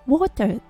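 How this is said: The final R is barely pronounced. "オーストラリア英語だとwater"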